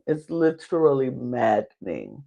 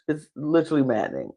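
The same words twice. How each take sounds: First: Slow, stretched "literally maddening"; drawn-out emphasis. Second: Said in the usual way. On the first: Shown as a demonstration. Host frustrated by Emily, "literally maddening" slowly stretched for emphasis. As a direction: draw out each syllable of "literally" and "maddening".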